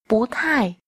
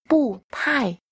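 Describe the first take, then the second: First: The first syllable has a rising second tone. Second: The first syllable has a falling fourth tone. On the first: "sẽ đọc thành bú thải" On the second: "Chữ bù khi đi trước một từ có thanh 4"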